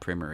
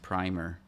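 First: The word is said the American way. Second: The word is said the Canadian way.

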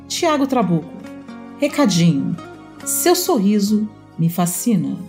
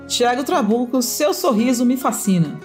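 First: It is said in an AM radio-announcer voice. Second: It is said in a plain, normal voice.

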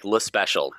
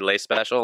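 First: The name has a plain American English pronunciation. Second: The name has a French-sounding pronunciation. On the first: "as Americanized as possible" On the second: "It's not French, but we don't mind"

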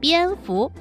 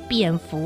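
First: The first syllable has a high level tone. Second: The first syllable has a dipping third tone. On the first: The speaker calls it right. "正确的念法是蝙蝠" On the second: The speaker calls it wrong. "很多人都会念成三声"

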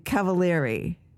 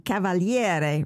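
First: The name is said the American way. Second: The name is said the Italian way.

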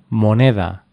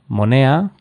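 First: The D between vowels is pronounced. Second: The D between vowels is left out. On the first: "en lugar de" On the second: "dirían"

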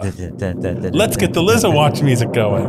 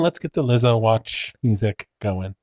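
First: It is said with more excitement. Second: It is said flatly, with little excitement.

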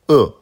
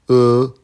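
First: The pitch falls sharply from high to low. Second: The pitch stays high and level. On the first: "quatrième ton" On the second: "premier ton"

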